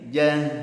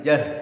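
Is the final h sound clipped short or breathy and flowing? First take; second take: flowing; clipped. First: The final h flows out with audible breath. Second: The final h is cut short without flowing breath. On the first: The speaker calls it right. "suara haknya mengalir" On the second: The speaker calls it wrong. "tidak boleh"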